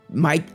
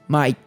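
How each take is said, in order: First: It is said with an Australian accent. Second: It is said with an Australian accent.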